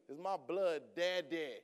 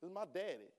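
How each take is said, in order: First: "blood" leaned on, the whole line drawn out slowly; slow right down and press on "blood"; slow stress on blood. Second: Said in the usual way. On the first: Shown as a demonstration. Preacher insists to the church, slowly stressing "blood". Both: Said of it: "Listen to me".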